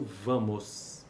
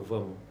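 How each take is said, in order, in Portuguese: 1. É pronunciada na forma padrão completa. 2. É pronunciada numa forma reduzida e coloquial. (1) "a variante padrão aceita apenas o vamos" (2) "a variante não padrão aceita o vamos"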